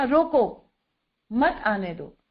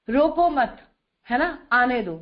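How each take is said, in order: First: "रोको" alone, a clear break, then "मत आने दो" together; pause after रोको. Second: "रोको मत" as one unit, then a break before "आने दो"; group it "रोको मत", pause, "आने दो"; pause after मत. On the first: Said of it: "comma बदल दें तो सारा अर्थ बदल गया". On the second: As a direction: keep मत tied to रोको, pause, then let "आने दो" follow. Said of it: "चार अक्षरों को इधर उधर करते हैं तो अर्थ बदल जाता है". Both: Shown as a demonstration.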